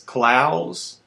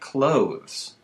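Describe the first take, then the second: First: The vowel sounds like the one in plows. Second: The vowel sounds like the one in clothes. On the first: The speaker calls it right. "It's Klaus like plows" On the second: The speaker calls it wrong. "not clothes like clothes"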